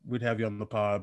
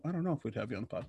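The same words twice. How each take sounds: First: Said in the usual way. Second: Rushed and quiet, taking it back; fast mumbled retraction. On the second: Real, not acted. To friend Tracy, quickly and quietly taking back the invite. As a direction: mutter the offer away under your breath.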